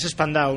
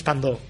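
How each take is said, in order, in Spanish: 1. La terminación se pronuncia como un diptongo 'ow'. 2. La terminación se pronuncia como una vocal 'oh' simple. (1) "Spandau es Spandau" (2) "no es Spandó"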